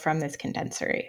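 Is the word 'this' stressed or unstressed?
unstressed. The word 'this' is not given special stress. There is no layoff from the condensery in general.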